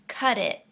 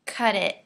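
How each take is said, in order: First: The words join, with the t sounding like d. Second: The same.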